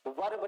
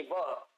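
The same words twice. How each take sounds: First: "वर्ब" with a clearly sounded r and b; heavy Hindi-style "वर्ब", every consonant sounded; hard r. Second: "वर्ब" with silent r, like "वə"; light intonation. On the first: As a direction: say "वर्ब" as spelt, r pronounced. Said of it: "वर्ब नहीं". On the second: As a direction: say "वर्ब" low and light, dropping the r. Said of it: "बहुत ही हल्के intonation से बोला जाएगा". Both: Shown as a demonstration.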